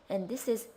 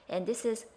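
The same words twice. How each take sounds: The two takes are said the same way.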